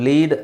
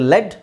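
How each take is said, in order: First: It is said with a long 'ee' vowel. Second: It is said with a short 'e' vowel. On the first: The speaker calls it wrong. "ಸಾರಿ ಇದು ಲೀಡ್ ಅಲ್ಲ" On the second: The speaker calls it right. "ಇದು ಲೆಡ್"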